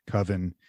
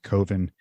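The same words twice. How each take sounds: First: "Coven" said as spelled, with a short "uh" vowel, KUV-en; spelling pronunciation. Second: "Coven" said with a long O, COH-ven; creator's pronunciation. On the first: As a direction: read "Coven" the dictionary way, KUV-en. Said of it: "which is spelled Coven". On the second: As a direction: say "Coven" to rhyme with "woven". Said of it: "he says it's pronounced Coven". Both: Shown as a demonstration.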